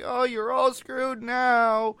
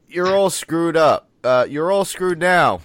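First: High, slow, drawn-out emphatic line; emphatic Hulk. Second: Loud, rushed movie line; loud quote. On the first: Retelling Bruce's arrival line, emphatic and drawn out. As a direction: stretch it out with big emphasis. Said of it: "he's so emphatic about it". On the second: Podcast host blurting the Hulk's line, loud. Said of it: "I'm sorry, I ruined that". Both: Retold or imitated.

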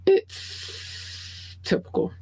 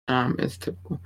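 First: Airy high-pitched drawled whisper; breathy high whisper. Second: Said in the usual way. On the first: Shown as a demonstration.

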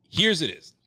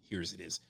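First: Louder announcing call; mock grand announcement. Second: Much softer, lower mutter; quiet aside to himself. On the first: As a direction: call it out to the room. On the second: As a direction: say it under your breath. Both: Shown as a demonstration. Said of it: "repeats line".

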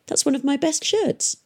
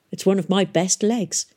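First: High-pitched, mildly indignant protest; indignant boy. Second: Dry comeback, close to usual pitch; offhand retort. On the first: Boy objects to girl tearing up his shirt, indignant. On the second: Girl bandaging her leg answers boy, offhand retort. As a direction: toss the retort back coolly. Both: A narrator's reading.

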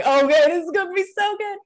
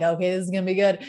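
First: Much higher, louder, faster and thrilled; excited. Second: Said in the usual way. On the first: Retold or imitated. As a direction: gush it out with rising excitement. I'm like.

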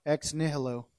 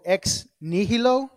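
First: Said in the usual way. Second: Latin phrase with Spanish-like flavor; Spanish-like accent. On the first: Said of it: "how to say it regular". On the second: Real, not acted. Preacher introducing a Latin phrase, in a Spanish-like accent. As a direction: give it a Spanish-accented lilt. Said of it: "I said that with an accent".

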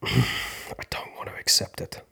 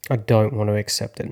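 First: Sighing whisper, barely voiced; whispered refusal. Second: Louder, pushing back; louder refusal. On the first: Refusing to accept the loss, sighing whisper. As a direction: whisper it after a sigh. Resisting acceptance, first take. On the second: Refusing to accept the loss, louder. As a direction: say it out loud, firmly. Resisting acceptance, second take. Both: Real, not acted.

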